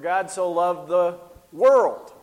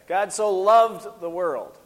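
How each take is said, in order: First: The word 'world' carries the stress. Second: The word 'loved' carries the stress. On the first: "or world" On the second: "we emphasize the word loved"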